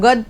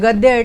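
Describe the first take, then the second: First: The word ends without the 'ya' sound. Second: The word ends with a clear 'ya' sound. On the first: The speaker calls it wrong. "ગદ પદ એવું ના ચાલે" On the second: The speaker calls it right. "ગદ્ય એટલે પાઠ"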